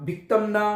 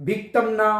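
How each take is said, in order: No difference in how they are said.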